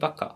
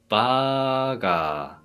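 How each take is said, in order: First: Both vowels are cut short. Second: Both vowels are held long. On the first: The speaker calls it wrong. "잘못하면은 바카처럼 들릴 수도 있어요" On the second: The speaker calls it right. "훨씬 더 길게 바가 이런 식으로"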